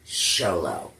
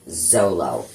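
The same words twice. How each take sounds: First: The name begins with a non-Z sound. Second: The name begins with a Z sound. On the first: The speaker calls it right. "apparently it's pronounced Xolo" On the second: The speaker calls it wrong. "I kept calling Miguel, the actor that plays Miguel, Xolo"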